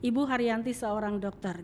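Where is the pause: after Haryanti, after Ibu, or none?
none. It is said without any pause. Ibu Haryanti is a doctor. "Ini tidak ada tanda jeda di situ"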